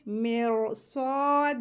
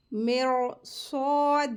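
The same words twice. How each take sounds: First: मेर स्वाद with the final d stopped, vowel long and heavy; slow recited मेर स्वाद, heavy r, ending on a pause; Quranic recitation. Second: मेर स्वाद with a heavy, full r and long stretched vowel; Quranic recitation. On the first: Teacher demonstrates the pause form of मेर स्वाद. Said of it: "कैसे पढ़ेंगे?". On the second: Teacher shows the heavy r in मेर स्वाद. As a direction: slowly recite मेर स्वाद, thick r, alif held two beats. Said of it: "रॉ heavy रहेगी". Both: Shown as a demonstration.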